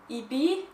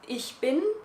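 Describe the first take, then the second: First: It is said in an Austrian German accent. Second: It is said in a standard German accent. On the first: "in Austrian it becomes a little bit more like" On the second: "in standard German it's"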